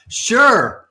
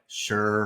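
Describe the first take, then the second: First: It is said with excitement. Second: It is said flatly, without enthusiasm.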